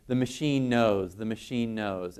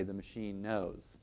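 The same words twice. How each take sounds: First: Insistent. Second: Soft, slow, resigned; quiet resigned murmur. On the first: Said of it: "you know, insistently". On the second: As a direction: murmur it under your breath, resigned. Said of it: "we have to say". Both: Retold or imitated.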